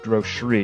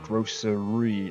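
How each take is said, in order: First: The word is squeezed into two syllables. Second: The word is said with three full syllables. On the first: "it kind of says grocery ... it's gonna be like two syllables" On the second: "not grocery"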